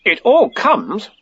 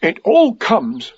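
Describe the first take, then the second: First: High, slow, mildly stern retort. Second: High, slow, mildly cross complaint. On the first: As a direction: throw it back with slow emphasis. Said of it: "said Rabbit sternly". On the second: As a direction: grumble it slowly in a raised pitch. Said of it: "said Pooh crossly". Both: A narrator's reading.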